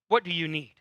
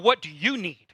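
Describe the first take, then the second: First: The question sounds sincere and caring. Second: The question sounds sarcastic and mocking. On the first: The speaker truly wants to help, even at a cost. The speaker calls it right. "not that way" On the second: The speaker does not really want to help. The speaker calls it wrong. "See, I say it sarcastically"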